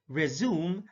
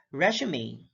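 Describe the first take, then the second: First: "resume" as rih-ZOOM; two-syllable "resume", rih-ZOOM; verb pronunciation. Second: "resume" as RESH-uh-may; three-syllable "resume", RESH-uh-may; noun pronunciation. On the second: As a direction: stress the first syllable of "resume", ending in may. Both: Shown as a demonstration. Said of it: "stress is the verbal emphasis used".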